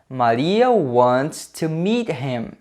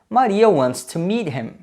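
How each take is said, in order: First: The sentence is said slowly. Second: The sentence is said faster.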